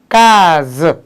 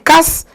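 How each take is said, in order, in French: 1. La consonne du milieu est un son Z bourdonnant. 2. La consonne du milieu est un son S sifflant. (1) "ça se lit case. Le son, c'est toujours Z" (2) "au lieu que ça se lit casse"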